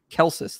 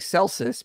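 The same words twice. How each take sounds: First: The name begins with a hard K sound. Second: The name begins with a soft S sound. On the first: The speaker calls it right. "but I guess it's Celsus then" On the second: The speaker calls it wrong. "I've been saying Celsus"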